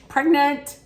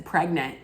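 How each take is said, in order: First: "Pregnant" much higher and louder, drawn out; exaggerated swooning "Pregnant". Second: Said in the usual way. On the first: Reacting to the French accent, a much higher, louder "Pregnant". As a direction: gush the word like the accent overwhelms her. Says word twice, second marked.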